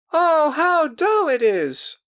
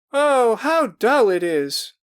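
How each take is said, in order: First: Very high, loud, slow drawn-out whine; bored girls crying. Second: High, loud, slow whining; bored girls crying. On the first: More girls complaining after another failure, high slow whine. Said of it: "more voices cried". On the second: Girls complaining the game is dull, high slow whine. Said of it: "cried voices". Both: A narrator's reading.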